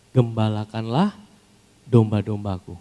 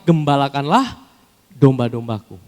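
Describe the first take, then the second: First: Slow, weighty, each word drawn out; slow solemn command. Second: Loud, ringing command; proclaimed command. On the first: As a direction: lay the command down slowly. Jesus's command, slowed. (perintah khidmat yang diucapkan pelan) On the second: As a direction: call it out to the crowd. (perintah yang diserukan dengan keras) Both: Acted.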